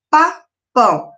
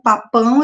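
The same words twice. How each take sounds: First: "Papão" slowly, as two separate beats, pa, pão; split into syllables. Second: Said in the usual way. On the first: Shown as a demonstration. Teacher counting syllables for pupils, "Papão" split in two. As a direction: break "Papão" after the first syllable, pausing between. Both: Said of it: "dividir essas palavras em sílabas".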